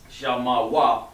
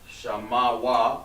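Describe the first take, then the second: First: Shah ma wa spelled out slowly, one syllable at a time; slow dictation pace. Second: Shah ma wa said slowly, each syllable separate; slow spelling-out voice. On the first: Teacher sounding out letters as he writes them. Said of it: "he has the ma like this". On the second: Teacher sounding out letters while writing for the class. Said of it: "like that". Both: Shown as a demonstration.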